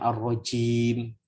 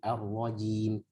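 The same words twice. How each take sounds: First: The j sound is breathy and weak. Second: The j sound is firm and voiced. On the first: The speaker calls it wrong. "Jangan hams" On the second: The speaker calls it right. "gitu ya"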